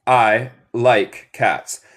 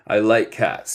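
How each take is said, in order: First: I like cats drawn out very slowly; deliberate classroom model sentence; slow teaching model. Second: Said in the usual way. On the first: Shown as a demonstration. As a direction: say it slowly for learners. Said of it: "A mí me gusta gatos".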